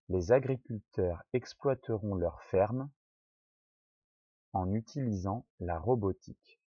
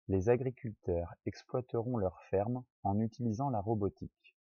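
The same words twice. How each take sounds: First: It is read very slowly. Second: It is read at normal speed.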